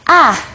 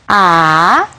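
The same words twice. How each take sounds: First: It is said with the fourth tone. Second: It is said with the third tone. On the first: "el último es A" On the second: "el tercer tono"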